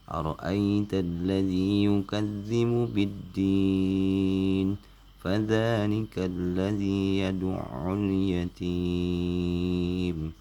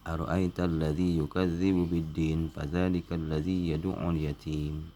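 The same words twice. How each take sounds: First: The vowels before the final consonants are drawn out long. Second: The vowels before the final consonants are held briefly. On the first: The speaker calls it right. "Jadi ujung-ujungnya enam harkat" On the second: The speaker calls it wrong. "itu salah membaca seperti itu ya"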